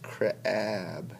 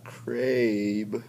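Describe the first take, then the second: First: The vowel is a short A sound. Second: The vowel is a long A sound. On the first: The speaker calls it right. "but it's crab. So it's short" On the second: The speaker calls it wrong. "the long A. It's not crabe"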